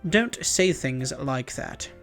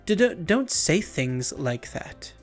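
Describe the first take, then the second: First: The voice sounds composed and dignified. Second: The voice sounds timid and hesitant.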